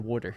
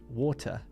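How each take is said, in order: First: The T is softened so it sounds like D. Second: The T is pronounced as a hard, clear T. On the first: "it sounds almost like W A R D E R" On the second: "Very hard T"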